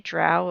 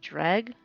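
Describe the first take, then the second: First: The word ends in a vowel, with no g. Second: The word ends with a hard g sound. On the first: This is how the speaker habitually says it. "I say drow" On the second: This is the supposedly official pronunciation. "Apparently, it's supposed to be dreg"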